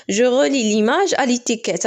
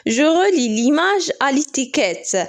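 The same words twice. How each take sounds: First: Said in the usual way. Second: Slow instruction read. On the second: Shown as a demonstration. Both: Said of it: "instruction read then repeated".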